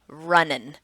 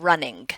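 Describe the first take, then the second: First: The word ends with a plain 'n' sound. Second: The word ends with a full 'ng' sound. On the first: This is not considered standard speech. "Marked speech is saying" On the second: This is considered standard speech. "instead of"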